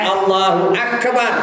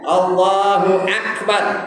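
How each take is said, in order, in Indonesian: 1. Suku kata terakhir terdengar terpotong, seperti 'ek'. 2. Suku kata terakhir terdengar berhembus, seperti 'ak'. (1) "Jangan Allahu akbar. Salah" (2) "Dia nak ak. Angin keluar ya"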